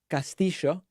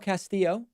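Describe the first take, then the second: First: The name is said with an Argentine Spanish accent. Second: The name is said with a plain English-style accent.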